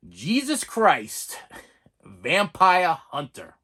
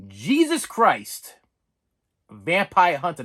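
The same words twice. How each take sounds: First: Slow, weighty title read; dramatic slow announcement; slow title announce. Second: Slow, louder weighty title read; dramatic title reveal; slow title announce. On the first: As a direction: spell out the title like a trailer voice. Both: Shown as a demonstration. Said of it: "I said it".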